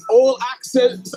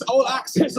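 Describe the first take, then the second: First: All accents, stretched slow and louder; savouring the phrase all accents; drawn-out emphasis. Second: Said in the usual way. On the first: Shown as a demonstration. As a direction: lean on all accents, drawing it out.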